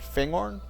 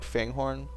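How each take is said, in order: First: The second part sounds like gorn, without horn. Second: The second part sounds like the word horn. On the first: The speaker calls it right. "Probably something like that" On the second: The speaker calls it wrong. "I guess it's not Horn"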